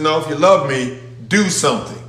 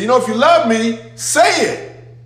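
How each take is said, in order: First: Said in the usual way. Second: Higher, mock-whiny: if you love me, say it; lightly voiced as a needy lover fishing for words; mock pleading voice. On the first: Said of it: "He said". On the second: Preacher mimicking empty love talk, high mock plea. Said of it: "he said".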